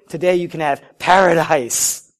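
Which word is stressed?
paradise. The word paradise is stressed.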